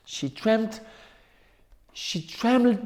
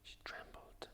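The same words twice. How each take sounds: First: Trembled raised higher, a small shaky rise; higher trembling. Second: Hushed whisper on she trembled; whispered trembling. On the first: Narrator lifting She trembled higher to show fear, pitch raised. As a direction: lift She trembled up as if quivering. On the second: Narrator hushing she trembled to scare listeners, whispered. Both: A narrator's reading.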